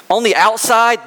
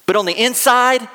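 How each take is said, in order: First: Outside lifted high and leaned on; stress on outside. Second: Inside lifted high and leaned on; stress on inside. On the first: Preacher to congregation, stressing outside. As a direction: punch outside to set up the contrast. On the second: Preacher to congregation, stressing inside. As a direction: hit inside hard against outside. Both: Shown as a demonstration.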